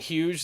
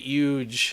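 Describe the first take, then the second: First: It is said in a plain accent. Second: It is said in a Long Island accent.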